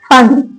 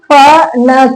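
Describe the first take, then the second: First: The word ends on the bare consonant. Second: A short vowel follows the final consonant.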